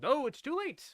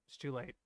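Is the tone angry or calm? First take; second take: angry; calm. First: It is said angrily, matching her anger. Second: It is said coolly, calming her down.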